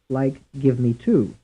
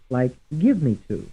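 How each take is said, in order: First: The stress falls on the word two. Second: The stress falls on the word give. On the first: "And some stressed on the third syllable" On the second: "Some will be stressed on the first syllable"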